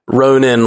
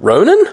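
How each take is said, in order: First: The name is said in a threatening way. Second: The name is said in a familiar, questioning way.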